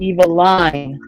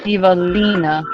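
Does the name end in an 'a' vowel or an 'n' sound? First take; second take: n sound; a vowel. First: The name ends in 'n', rhyming with Caroline. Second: The name ends with a final 'a' vowel. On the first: "like Caroline" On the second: "you're going Evelina"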